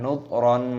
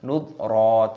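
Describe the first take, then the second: First: The word ends with an n sound. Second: The word ends on a long open vowel. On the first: The speaker calls it wrong. "jangan nudron" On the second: The speaker calls it right. "dibaca mad iwad, kita baca nudro"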